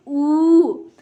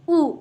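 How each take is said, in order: First: ऊ stretched slowly into a long vowel; long drawn oo. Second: ऊ said short and quick. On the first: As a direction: draw ऊ out long. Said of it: "थोड़ा खींच के पढ़ रहे हैं". (बड़ा ऊ, खींच कर लंबा बोलें) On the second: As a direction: clip ऊ short, read it fast. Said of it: "हम जल्दी पढ़ रहे हैं". (छोटा ऊ, जल्दी और छोटा बोलें) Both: Shown as a demonstration.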